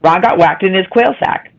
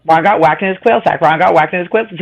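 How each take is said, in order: First: "Ron got whacked in his quail sack" rattled off quickly; fast demo. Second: "quill sack" slipping out for "quail sack" at speed; fast repeats. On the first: Showing the friend how to say it fast. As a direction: show the tongue twister at full speed. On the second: Trying the twister five times fast for the group. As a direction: rattle it off until the tongue slips. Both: Shown as a demonstration. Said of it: "Show us how to do it".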